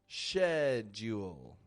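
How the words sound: It begins with an sh sound, British style. "the British accent will make a little bit more of a sh"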